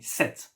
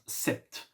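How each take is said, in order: First: The P sound is silent. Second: The P sound is pronounced. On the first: The speaker calls it right. "Pronounce it like me. Even if there is a P, we don't pronounce it" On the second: The speaker calls it wrong. "and not"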